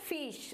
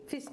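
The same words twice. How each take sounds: First: The vowel is drawn out long. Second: The vowel is clipped short. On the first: The speaker calls it wrong. "अगर कोई long sound होता तो हम क्या बोलते हैं" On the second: The speaker calls it right. "इसको हम शॉर्ट वाउल साउंड में गिनते हैं तो इसको हम बोलेंगे फिश"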